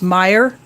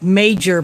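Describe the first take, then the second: First: It sounds like 'my-er', with no j sound. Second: It sounds like 'may-jer', with a j sound. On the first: The speaker calls it right. "but it's pronounced Meyer" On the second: The speaker calls it wrong. "When I first saw it, I think it's like major"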